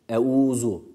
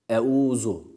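The two takes are said the same way.

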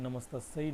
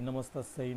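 The two takes are said the same way.

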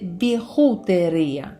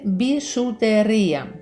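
First: The middle consonant is a rough 'kh' sound. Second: The middle consonant is a soft 'sh' sound. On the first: The speaker calls it wrong. "замість «еше» всередині слова «хота»" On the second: The speaker calls it right. "правильно писати і вимовляти «бішутерія»"

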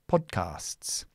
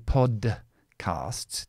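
First: The D is held as a silent stop. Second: The D is released with an audible burst. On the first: The speaker calls it right. "Just say podcasts" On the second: The speaker calls it wrong. "Don't explode the D. Don't say podcasts"

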